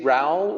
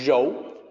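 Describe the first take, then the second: First: The vowel sounds like 'ow' in cow. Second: The vowel sounds like 'oh' in go. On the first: The speaker calls it wrong. "a native English speaker might say Rao" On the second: The speaker calls it right. "it's more like more like R O H"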